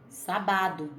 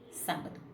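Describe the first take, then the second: First: The stress is on the middle syllable. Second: The stress is on the first syllable. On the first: "Se a tônica fosse o bar" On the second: "Como a tônica é o sá"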